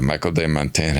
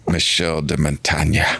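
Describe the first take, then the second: First: The name is pronounced with English sounds. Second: The name is pronounced with French sounds.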